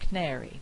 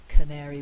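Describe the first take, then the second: First: The first weak vowel is dropped. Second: The first weak vowel is pronounced. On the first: "We've lost the vowel altogether" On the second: "instead of saying canary"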